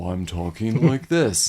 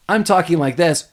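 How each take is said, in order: First: Low, slow drawl like dragging tape. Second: Said in the usual way. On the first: Shown as a demonstration. Demonstrating the Talkboy's slowdown feature, slowed-down deep voice. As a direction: drop deep and stretch every word slowly. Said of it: "And he slows down". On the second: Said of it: "where it slows down the audio. So".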